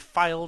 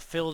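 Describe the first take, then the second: First: The vowel is long, rhyming with 'file'. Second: The vowel is short, rhyming with 'fill'. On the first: "filed or filled, however you pronounce it" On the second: "filed or filled, however you pronounce it"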